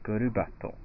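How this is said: It is said with a Japanese pronunciation.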